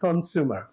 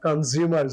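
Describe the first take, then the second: First: The middle consonant is an S sound. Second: The middle consonant is a Z sound. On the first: The speaker calls it right. "এস একেবারে সিঙ্গাপুরের এস, কনজিউমার এইভাবে বললে ভালো শুদ্ধ হয়" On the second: The speaker calls it wrong. "জিম্বাবুয়ের জেড"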